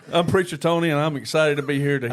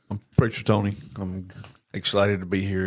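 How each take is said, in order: First: It is said with lively energy. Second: It is said flatly, with little energy.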